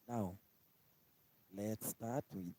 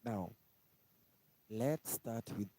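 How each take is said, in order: Both takes have the same delivery.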